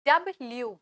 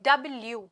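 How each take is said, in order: Both takes have the same delivery.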